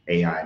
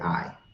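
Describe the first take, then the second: First: The name is said as two syllables. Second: The name is said as one syllable.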